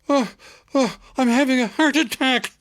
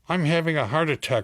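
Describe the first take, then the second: First: It is said dramatically, with strong emphasis. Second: It is said flatly, with little emphasis.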